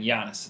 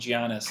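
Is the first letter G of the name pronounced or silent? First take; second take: silent; pronounced. First: The name starts without any G sound. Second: The name starts with a hard G sound. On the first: The speaker calls it right. "It's a silent G" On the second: The speaker calls it wrong. "shame Clay too much for saying Giannis"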